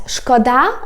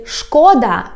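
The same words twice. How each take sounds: First: "szkoda" stressed on final DA; end-stressed "szkoda"; stress on last syllable. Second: "szkoda" stressed on the first syllable, SZKO-; front-stressed "szkoda". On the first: Teacher explaining the word for pity, "szkoda" stressed on DA. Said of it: "it means it's a pity". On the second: Teacher explaining the word for harm, "szkoda" stressed on SZKO. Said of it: "if you put stress on the". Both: Shown as a demonstration.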